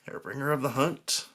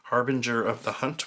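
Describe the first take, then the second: First: The first word sounds like 'hair-bringer'. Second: The first word sounds like 'harbinger'. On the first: The speaker calls it wrong. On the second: The speaker calls it right.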